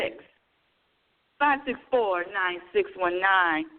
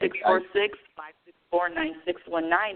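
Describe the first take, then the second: First: The number is said more slowly. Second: The number is said at normal speed.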